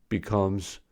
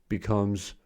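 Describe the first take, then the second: No difference in how they are said.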